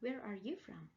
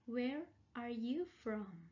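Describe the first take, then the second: First: It is said quickly and smoothly linked. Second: It is said slowly, word by word.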